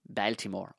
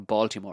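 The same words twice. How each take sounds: First: It is said with an Irish pronunciation. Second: It is said with an American pronunciation.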